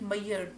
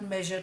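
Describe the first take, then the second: First: The middle zh sound is replaced by another sound. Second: The middle consonant is a zh sound. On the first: The speaker calls it wrong. "when you get a native Hindi speaker to speak measure, he would call it mayer" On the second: The speaker calls it right. "and not measure"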